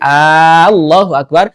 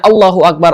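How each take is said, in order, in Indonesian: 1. Huruf vokal pertama pada Allah dipanjangkan. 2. Huruf vokal pertama pada Allah pendek. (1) "kalau dipanjangkan A-nya, hamzahnya jadi" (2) "yang tadinya maknanya Allahu Akbar"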